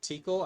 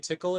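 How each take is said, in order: First: It is said with a long vowel, 'teakle'. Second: It is said like the word 'tickle'. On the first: "instead of teakle" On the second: "Should I say tickle"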